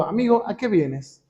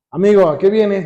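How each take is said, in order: First: Softer, tender question to a friend; loving, merciful. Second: Lightly sarcastic challenge to a friend. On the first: Preacher voices Jesus greeting his betrayer, soft and loving. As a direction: say it softly, with mercy. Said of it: "amoroso, un tono misericordioso". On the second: Preacher shows how Jesus did not greet Judas, mildly sarcastic. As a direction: put a touch of sarcasm on it. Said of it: "no crean que fue Jesús como sarcástico". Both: Acted.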